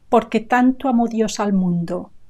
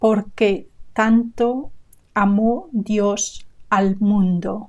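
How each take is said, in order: First: It is said at normal speed. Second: It is said slowly.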